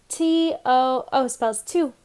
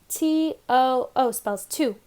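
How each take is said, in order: No difference in how they are said.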